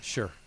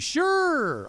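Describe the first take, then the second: First: It is said flatly, without enthusiasm. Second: It is said brightly, with enthusiasm. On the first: The speaker is reluctant about the invitation. "Sounds so exhilarating" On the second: The speaker gladly accepts the invitation. "But it could be"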